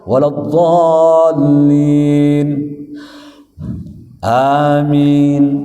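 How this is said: A breath-long pause comes before amin.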